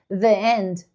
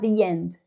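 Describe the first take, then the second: First: The two words are said separately, without linking. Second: The two words are linked smoothly with a y-sound. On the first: The speaker calls it wrong. "se eu falar assim, the end, tá menos fluido" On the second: The speaker calls it right. "do que falar the end"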